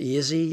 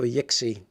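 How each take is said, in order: First: The middle consonant is a z sound. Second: The middle consonant is a ks sound. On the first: "X like a Z" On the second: "Or an X?"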